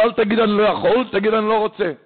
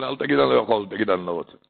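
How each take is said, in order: First: Higher, lightly voiced gentile; a hint of a gentile's blunt retort, higher. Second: Said in the usual way. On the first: אז אמר.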